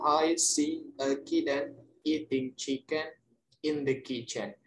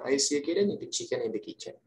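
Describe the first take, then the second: First: The sentence is said slowly. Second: The sentence is said very fast. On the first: "mungkin pelannya" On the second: "And the fastest one"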